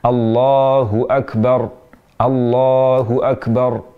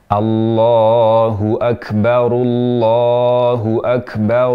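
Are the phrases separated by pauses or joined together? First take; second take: separated; joined. First: The phrases are separated by pauses. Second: The phrases are joined without pauses. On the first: "Jika ingin memisahkan" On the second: "Namun jika disambung"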